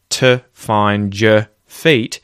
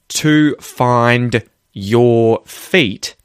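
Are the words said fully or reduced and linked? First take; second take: reduced; fully. First: The words are reduced and run together. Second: Each word is said fully and separately. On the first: "you're going to hear me reduce to and your" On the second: "instead of saying"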